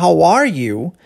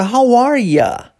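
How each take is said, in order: First: "How are you" with "you" pronounced fully; full form "you". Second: Higher, drawn-out "How are ya" with "ya" for you; casual "ya". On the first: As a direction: ask it with a complete "yoo". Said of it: "ao invés de perguntar". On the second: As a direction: reduce "you" to an everyday "ya". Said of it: "Esse ya é". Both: Shown as a demonstration.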